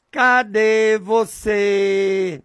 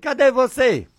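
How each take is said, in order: First: Long, stretched call to God; drawn-out calling. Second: Short, higher-pitched call; calling to God. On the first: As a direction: call out slowly, holding each vowel. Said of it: "Eu digo desse jeito". (chamado longo e arrastado) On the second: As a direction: call out briskly without stretching the vowels. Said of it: "Desse jeito". (chamado curto e mais agudo) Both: Shown as a demonstration.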